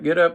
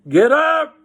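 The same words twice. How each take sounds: First: It is said in a normal, quiet voice. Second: It is shouted in a loud voice.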